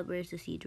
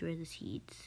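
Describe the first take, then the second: First: Said in the usual way. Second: Breathy whisper to herself. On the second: Real, not acted. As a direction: say it under your breath. Repeats it whispered.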